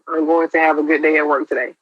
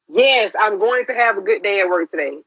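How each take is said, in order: First: It sounds flat and half-hearted. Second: It sounds convinced and full of meaning.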